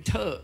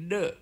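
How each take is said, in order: First: "เทอ" with a puff of air; aspirated T sound. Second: "เดอะ" with a voiced d; voiced D sound. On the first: Lecturer showing the Thai substitute, aspirated "เทอ". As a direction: demonstrate "เทอ" as short aspirated thuh. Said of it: "เอาไปเป็นเทอ". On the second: Lecturer showing the original letter sound, voiced "เดอะ". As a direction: demonstrate "เดอะ" as a short duh. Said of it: "ซึ่งเป็นเสียงเดอะ". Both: Shown as a demonstration.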